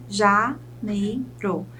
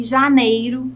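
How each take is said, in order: First: Very slow "janeiro", split ja, nei, ro; syllable by syllable. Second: Said in the usual way. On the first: Shown as a demonstration. Teacher shows three syllables to students, "janeiro" syllable by syllable. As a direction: pause between each syllable of "janeiro". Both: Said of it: "Eu chamo de trissílabas".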